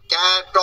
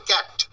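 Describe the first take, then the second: First: ক্যাট stretched into two beats, "kya-ta"; wrong split reading. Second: Said in the usual way. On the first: Shown as a demonstration. Teacher showing how not to read it, ক্যাট split as "kya-ta". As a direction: add a drawn-out vowel after the t in ক্যাট. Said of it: "এভাবে নয়, এটাকে বলো ক্যাট". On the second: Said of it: "যে কেউ এটা পড়বেন ক্যাট".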